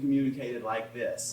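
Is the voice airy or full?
full. The voice is full, with firmly closed vocal cords. "I don't always want something communicated like this"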